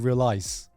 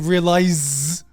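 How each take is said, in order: First: The middle consonant is a hissing s sound. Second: The middle consonant is a buzzing z sound. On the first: "I say I say realize" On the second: "I don't say realize"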